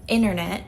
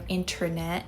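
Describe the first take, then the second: First: The first t sound is dropped. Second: The first t sound is fully pronounced. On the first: This is how Americans say it. "Americans like to pronounce T differently" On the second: This is the expected textbook form. "instead of"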